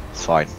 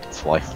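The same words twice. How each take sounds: The two takes are said the same way.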